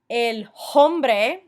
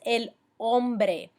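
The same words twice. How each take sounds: First: The h at the start is pronounced aloud. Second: The h at the start is completely silent. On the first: The speaker calls it wrong. "make sure that you're not saying things like" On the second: The speaker calls it right.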